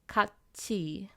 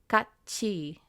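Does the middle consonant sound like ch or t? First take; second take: ch; ch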